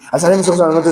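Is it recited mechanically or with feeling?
mechanically. It is recited flatly, without feeling.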